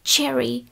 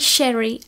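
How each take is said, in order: First: The word begins with a ch sound. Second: The word begins with a sh sound. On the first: The speaker calls it right. "ale cherry ... Chceme tam č" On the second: The speaker calls it wrong. "Neříkám š, opravdu to není sherry"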